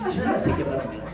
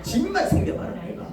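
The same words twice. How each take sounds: First: Hushed threat. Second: A much higher mock whine on 집만. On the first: Retold or imitated. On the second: Grown child grumbling about parents in a much higher whine. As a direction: whine 집만 up high like a sulky child.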